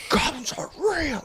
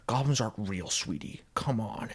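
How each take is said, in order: First: Very high, strained squawk; mock exasperated outburst. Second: Just saying it. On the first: Husband snapping at wife's goblin talk, high mock outburst. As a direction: squeal it as if losing patience. Husband escalating, then drunk and violent. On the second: Retold or imitated. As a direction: dismiss it gently and quietly. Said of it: "he just says it".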